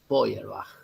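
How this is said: The name is pronounced with German sounds. "pero en alemán se dice Feuerbach"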